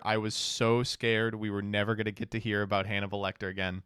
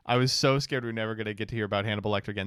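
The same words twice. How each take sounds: First: Said in the usual way. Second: Rattled off fast, same words again at speed; fast mock-scared rattle; fast repeat. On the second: Shown as a demonstration. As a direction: rush through it in one breath. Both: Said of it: "repeats the line faster".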